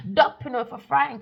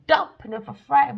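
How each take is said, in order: First: Whisper. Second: Louder emphatic retake; loud punchline; loud repeat. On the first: Whispered then repeated loudly. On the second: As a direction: declare it loudly this time. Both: Acted.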